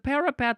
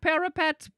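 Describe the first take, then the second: First: It is said as one word, 'para-pet'. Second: It is said like 'parrot pet'. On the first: A wall or tower is meant. The speaker calls it right. "No, it's a parapet" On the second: A pet parrot is meant. The speaker calls it wrong. "like a squawk squawk parapet? Polly want a cracker?"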